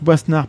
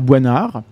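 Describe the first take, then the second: First: The S sound in the name is pronounced. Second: The S sound in the name is silent. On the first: The speaker calls it right. "ça se prononce Boisnard, ... le S se prononce" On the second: The speaker calls it wrong. "pas Boinard"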